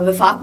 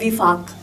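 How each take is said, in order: First: The first vowel is an a sound. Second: The first vowel is an i sound. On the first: The speaker calls it wrong. "आप वफा वफाक बोलते हो" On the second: The speaker calls it right. "जबकि word है विफाक"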